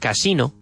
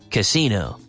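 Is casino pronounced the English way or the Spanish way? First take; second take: Spanish; English. First: The word has a Spanish pronunciation. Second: The word has an English pronunciation. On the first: "And how about el casino?" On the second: "pronounce it like a giri, and then you have perfect English"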